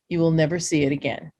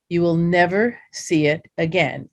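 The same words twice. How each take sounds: First: It is spoken at a normal pace. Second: It is spoken at a slow pace.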